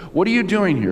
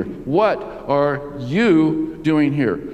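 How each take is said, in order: First: Said in the usual way. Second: "What are you doing here" very slow, word by word, "you" set apart and punched; stress on YOU. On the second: Shown as a demonstration. Preacher changing the emphasis of God's question, "you" slowly stressed. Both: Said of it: "change the emphasis".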